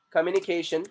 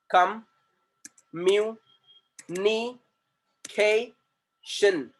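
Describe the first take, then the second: First: Said in the usual way. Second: "communication" very slowly in five separate beats; "communication" drawn out syllable by syllable; split into syllables. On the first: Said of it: "If you see in this word". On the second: Shown as a demonstration. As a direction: break "communication" into com, mu, ni, ca, tion, pausing between. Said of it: "there are five syllables in this word".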